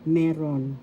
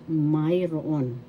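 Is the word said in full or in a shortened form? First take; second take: shortened; full. First: The word is said in a short, contracted form. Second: The word is said in its full, longer form. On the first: It is casual, everyday usage. "Colloquially, mayroon is pronounced as meron" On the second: It is formal usage. "this is the formal way of usage"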